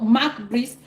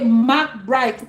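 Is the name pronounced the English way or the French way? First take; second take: French; English. First: The name is pronounced the French way. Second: The name is pronounced the English way. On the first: "in Cameroon, it is called" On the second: "In English, you would hear people say"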